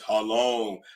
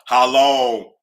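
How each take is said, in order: First: It is said in a deep, manly voice. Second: It is said in an ordinary voice.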